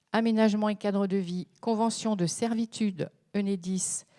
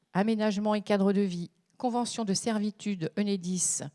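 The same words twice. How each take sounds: Both takes have the same delivery.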